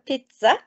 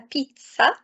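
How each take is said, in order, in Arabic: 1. الحرف الأوسط يُنطق مثل 'z' عادي. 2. الحرف الأوسط يُنطق مثل 'ts'. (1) "مش هننطقها بيتزا" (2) "هنقولها بيتزا عشان حرف الزد بين الحروف المتحركة بينطق ت س"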